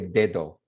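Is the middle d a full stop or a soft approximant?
full stop. Both d sounds are full stops, English-style.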